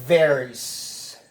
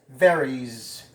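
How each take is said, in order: The two takes are said the same way.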